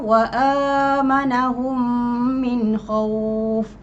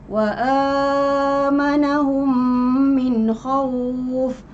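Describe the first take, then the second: First: The long vowel is held for two beats. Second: The long vowel is held for four beats.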